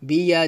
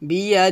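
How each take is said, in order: No difference in how they are said.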